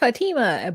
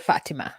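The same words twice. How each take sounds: First: The name is said with an American pronunciation. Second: The name is said with a non-American pronunciation. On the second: "every other place but America say Fatima"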